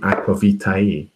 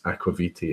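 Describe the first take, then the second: First: All the vowels are pronounced at the end. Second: The final vowels are not fully pronounced. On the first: "in the Latin way ... they pronounce all the vowels" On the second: "the way I pronounce Aquavite, is probably not correct"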